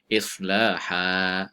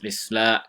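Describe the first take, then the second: First: The final vowel is held for two beats. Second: The final vowel is cut short or dropped. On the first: The speaker calls it right. "dibaca dengan waqaf, maka dibaca dengan dua harakat" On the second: The speaker calls it wrong. "kalau kita kita waqaf tapi kita baca dengan baca pendek"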